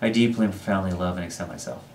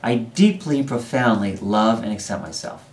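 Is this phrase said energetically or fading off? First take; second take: fading; energetic. First: The phrase fades off with little energy. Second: The phrase is said with strong energy. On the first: The speaker calls it wrong. "put a lot of emphasis in the first half and kind of fade off in the second half" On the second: The speaker calls it right. "put a lot of energy into the second half"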